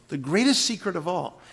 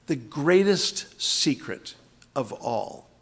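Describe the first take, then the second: First: Said in the usual way. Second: Drawn out, weight on greatest, falling; slow it right down and lean on greatest; slow emphatic reading. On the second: Shown as a demonstration. Teacher showing the verse's drama, slow and stressed. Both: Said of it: "Let me show you how".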